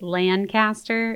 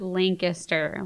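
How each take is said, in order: First: The name is said unlike the city name. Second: The name is said like the city name. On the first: The speaker calls it right. "It's actually Lancaster" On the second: The speaker calls it wrong. "not Lancaster, like the city"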